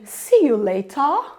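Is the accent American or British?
British. It has a British accent with a stretched vowel.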